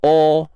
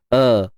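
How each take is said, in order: First: The vowel is rounded, like 'o'. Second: The vowel is open and clear, like 'a'. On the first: The speaker calls it wrong. "jangan dibunyikan o" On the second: The speaker calls it right. "Biasa je tahqiq hamzah pangkal kerongkong. A, jelaskan"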